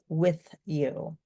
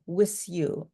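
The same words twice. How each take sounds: First: The word 'with' ends in a th sound. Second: The word 'with' ends in an s sound. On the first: The speaker calls it right. "instead of with you" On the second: The speaker calls it wrong. "place an S for a T H"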